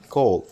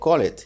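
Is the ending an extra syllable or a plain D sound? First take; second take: D sound; extra syllable. First: The ending is just a D sound. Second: The ending is said as an extra syllable. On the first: The speaker calls it right. "al sonido normal le vamos a agregar la D" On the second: The speaker calls it wrong. "O call it"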